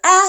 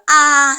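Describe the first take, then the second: First: The vowel is short. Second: The vowel is long. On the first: "the ah sound" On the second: "The long counterpart"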